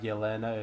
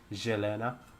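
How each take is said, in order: First: The name begins with a Y sound. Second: The name begins with a J sound. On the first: The speaker calls it wrong. "it's not Yelena" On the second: The speaker calls it right. "Y is J, it's Jelena"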